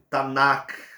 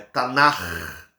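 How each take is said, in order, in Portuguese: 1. A palavra termina com som de k forte. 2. A palavra termina com um som gutural rascante. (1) "nós nunca vamos ler" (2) "Ele vai ter um R muito mais acentuado"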